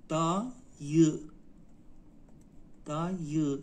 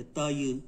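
First: دایی split slowly into دا, pause, یی; slow teaching demo of دایی, in two parts; syllable by syllable. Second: Said in the usual way. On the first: Shown as a demonstration. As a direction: sound out دایی in two long beats. Teacher breaks word into syllables.

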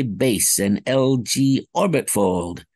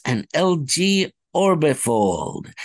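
First: "orbit fold" split into two words, slowly; the bobbled first take; fumbled technobabble. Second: "orbifold" said as one smooth word, slowly; the clean retake; corrected technobabble. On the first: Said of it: "I kind of bobbled that one". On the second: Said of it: "Let me try again". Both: Shown as a demonstration.

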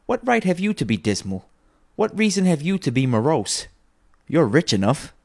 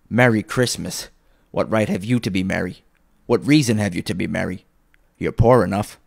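First: High-pitched, playful teasing. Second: Put-on louder, gruffly scornful old uncle; scornful retort. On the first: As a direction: turn uncle's words round merrily. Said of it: "returned the nephew gaily". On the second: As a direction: throw the greeting back with contempt. Scrooge sneers back at his nephew. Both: A narrator's reading.

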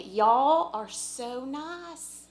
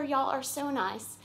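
First: Slow, drawn-out Southern drawl on y'all, higher; Southern accent. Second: A lighter Southern y'all, falling at the end; light Southern accent. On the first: Thanking the church folks, in a hammed-up Southern drawl. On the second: Repeating her thanks to the congregation, in a light Southern accent. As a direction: ease off the Southern accent, just a hint. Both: Pretend. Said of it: "bring out a little bit of my Southern accent".

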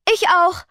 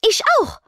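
First: High, quick ich auch; hasty insistence. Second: Very high, loud ich auch; eager call. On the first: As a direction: hurry to add yourself too. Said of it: "beteuerte Rebecca hastig". (hastig beteuert, „Ich auch“ schnell und hoch) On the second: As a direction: jump in to volunteer first. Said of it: "rief Rochelle". (laut gerufenes „Ich auch“, sehr hoch) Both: A narrator's reading.

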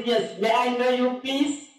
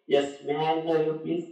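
First: Slow, rising polite query; raised questioning tone. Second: Low, subdued phone question; lowered polite tone. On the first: Asking the night caller's name, voice climbing. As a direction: lift the pitch towards PLEASE. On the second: Asking the caller again after being hushed, low and contained. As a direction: bring it down and ask politely. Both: Acted.

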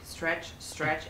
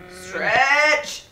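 First: Said in the usual way. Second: Loud, higher, drawn-out push; straining effort. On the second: Real, not acted. Player willing the climber upward, loud straining cry. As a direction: strain the word out as you reach.

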